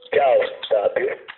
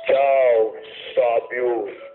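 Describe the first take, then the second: First: It is said in a normal voice. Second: It is said in a deep voice.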